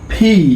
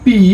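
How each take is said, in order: First: The p is said with a puff of air. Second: The p is said without a puff of air. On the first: The speaker calls it right. "ফিকে বলতে হয় aspirated sound" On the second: The speaker calls it wrong. "আগে আমরা বলতাম পি"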